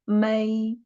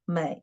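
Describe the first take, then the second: First: The pitch stays high and level. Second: The pitch dips low, then rises. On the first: "The first tone should be 美" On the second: "the third tone is 美"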